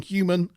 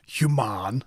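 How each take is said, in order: First: Said in the usual way. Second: "Human" as hew-MAHN, stretched second syllable; "Human" with an open "ah" in the last syllable; Ferengi pronunciation. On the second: Retold or imitated. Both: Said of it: "He says it like a".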